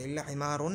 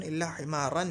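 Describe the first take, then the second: First: हिमारुन with a "u" before the final n; wrong "-un" ending. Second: हिमारन with an "a" before the final n; accusative "-an" ending. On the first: Teacher warns students off this reading, "-un" ending. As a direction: end हिमारुन on "-un". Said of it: "नहीं पढ़ेंगे". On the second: Teacher shows students the only accepted reading, "-an" ending. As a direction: end हिमारन clearly on "-an". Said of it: "ही पढ़ेंगे". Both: Shown as a demonstration.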